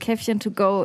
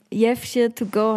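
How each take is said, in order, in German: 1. Das erste Wort beginnt mit einem standarddeutschen, harten k. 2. Das erste Wort beginnt mit einem weichen, berlinerischen Laut.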